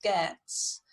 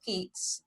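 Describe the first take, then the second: First: "Geats" said with an "ay" vowel, like GAY-ats; pronunciation of Geats. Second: Said in the usual way. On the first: Shown as a demonstration. Teacher showing the class how "Geats" is pronounced, GAY-ats. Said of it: "it's pronounced Geats". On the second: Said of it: "where it says Geats".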